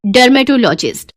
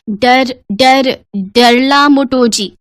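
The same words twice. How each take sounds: First: Said in the usual way. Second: Haltingly mangle dermatologist into "डरला मोटोजी"; garbled pronunciation. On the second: Acted. Farmer parent struggles to name the doctor, halting garbled "डरला मोटोजी". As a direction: stumble on "डर-, डर-", then slowly garble it as "डरला मोटोजी".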